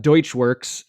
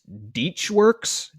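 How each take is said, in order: First: The first syllable sounds like 'doych'. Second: The first syllable sounds like 'deech'. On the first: The speaker calls it wrong. "It's not Deutschworks" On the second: The speaker calls it right. "It's Deechworks"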